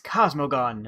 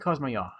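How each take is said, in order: First: The name is read out with plain English sounds. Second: The name is said with Italian-like sounds. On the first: The speaker calls it wrong. "I just see Cosmogon" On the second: The speaker calls it right. "That sounds Italian enough"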